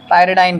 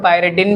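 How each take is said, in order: First: पायरिडाइन ending like English "dine"; pyridine as "-dine". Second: पायरिडिन ending in a short "din"; pyridine as "-din". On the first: Teacher explaining the pyramid-like name, -dine ending. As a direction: say पायरिडाइन with a long "eye" in the last syllable. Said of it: "कई सारे लोग पायरिडिन भी कहते हैं". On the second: Teacher warning students about the common variant, -din ending. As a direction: say पायरिडिन with a short i in the last syllable. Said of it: "पायरिडिन भी कहते हैं". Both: Shown as a demonstration.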